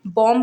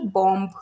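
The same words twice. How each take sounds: First: बॉम्ब with a silent b; बॉम्ब, b left silent; correct pronunciation. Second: बॉम्ब with the final b sounded; wrong बॉम्ब, b pronounced; wrong pronunciation. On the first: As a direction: say बॉम्ब ending on m. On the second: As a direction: say बॉम्ब with a b after the m. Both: Shown as a demonstration. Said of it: "ना कि बॉम्ब".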